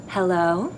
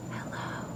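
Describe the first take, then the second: First: Said in the usual way. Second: Unvoiced whispered hello. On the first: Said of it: "Say hello". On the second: Shown as a demonstration. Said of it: "Whisper hello".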